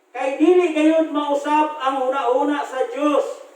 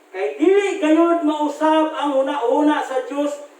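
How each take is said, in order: The two takes are said the same way.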